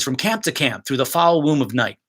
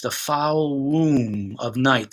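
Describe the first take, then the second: First: Said in the usual way. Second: Very slow, stress on womb; drawn out. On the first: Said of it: "if an actor sustains some of that sound". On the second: Shown as a demonstration. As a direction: stretch foul womb of night out. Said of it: "allow the audience to hear that image".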